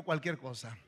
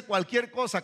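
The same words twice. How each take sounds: First: Cualquier cosa dropped low and soft for the church to repeat; low, soft prompt of "cualquier cosa"; call-and-response cue. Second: "cualquier cosa" half-sung with a falling stress on "cosa"; emphatic quote. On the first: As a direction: say "cualquier cosa" quietly, inviting the congregation to echo it. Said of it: "Diga conmigo". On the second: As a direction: lean into "cualquier cosa" with a sing-song lilt. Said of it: "Pero dice". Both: Shown as a demonstration.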